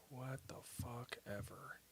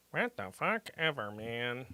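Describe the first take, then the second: First: Much softer, under the breath; grumbled aside; muttered. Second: Said in the usual way. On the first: Real, not acted. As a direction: mutter it to yourself.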